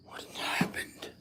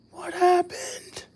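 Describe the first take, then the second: First: Startled unvoiced whisper; hushed startled question. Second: Much higher, slow, drawn-out question; high bewildered repeat; surprised. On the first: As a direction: ask under your breath, alarmed. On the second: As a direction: repeat it aloud in disbelief. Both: Real, not acted.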